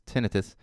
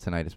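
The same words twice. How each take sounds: First: It uses the British pronunciation of the word. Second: It uses a non-British pronunciation of the word. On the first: "in Britain it's tinnitus" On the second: "I call it tinnitus"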